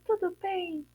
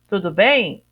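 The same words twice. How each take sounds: First: It is said in a put-on princess voice. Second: It is said in a plain everyday voice. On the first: The speaker calls it right. "Olha a maneira que a princesa fala" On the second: The speaker calls it wrong. "A princesa não fala assim"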